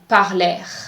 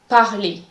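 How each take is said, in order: First: The final R is sounded. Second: The final R is silent. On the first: The speaker calls it wrong. "Do not say parler" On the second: The speaker calls it right. "the R at the end of the word is silent"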